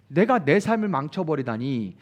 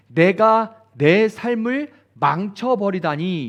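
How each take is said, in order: First: Said in the usual way. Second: Slow, drawn-out self-pity, a bit louder; mock self-pitying sigh over one's ruined life; self-pitying lament. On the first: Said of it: "자, 이런 거". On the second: Shown as a demonstration. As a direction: wallow in it slowly, lingering on 내가. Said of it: "이런 거예요".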